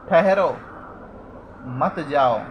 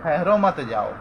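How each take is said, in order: First: ठहरो called out firmly, long pause, then मत जाओ; pause after ठहरो. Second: ठहरो मत जाओ run together without a pause; no break after ठहरो, straight on into मत जाओ; punctuation ignored. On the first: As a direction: stop dead after ठहरो, then say मत जाओ as its own phrase. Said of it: "यदि विराम चिन्ह ध्यान से न देखे तो". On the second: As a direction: read ठहरो मत जाओ straight through as one phrase. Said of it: "इसे इस प्रकार भी पढ़ सकते हैं". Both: Shown as a demonstration.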